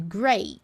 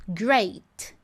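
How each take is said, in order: First: "Great" with t held, not popped; unreleased t. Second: "Great" with the t popped; released t. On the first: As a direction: stop on the t silently. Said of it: "mas não explodo". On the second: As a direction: explode the final t. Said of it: "Explodiu o T". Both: Shown as a demonstration.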